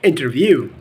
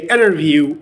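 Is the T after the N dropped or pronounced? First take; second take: pronounced; dropped. First: The T after the N is pronounced. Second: The T after the N is dropped. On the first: "instead of saying interview" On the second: "you can delete the T sound and you can say interview"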